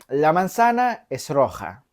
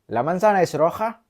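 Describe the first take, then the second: First: It is said as a plain statement. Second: It is said with question intonation. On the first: The apple is red. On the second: Asks whether the apple is red.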